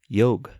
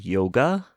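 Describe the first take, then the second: First: The word ends with a consonant sound. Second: The word ends with a vowel sound. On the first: This is the original way of saying it. The speaker calls it right. "it's meant to be pronounced yog" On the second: This is the modern way of saying it. The speaker calls it wrong. "That's the twenty-first century pronunciation"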